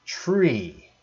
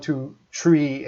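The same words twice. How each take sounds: First: "tree" for three, plain t with no th; Newfoundland tree. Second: "tree" with a t, no th; old tree. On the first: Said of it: "they pronounced it". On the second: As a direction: show the habit you dropped, "tree". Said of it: "I don't say one". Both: Shown as a demonstration.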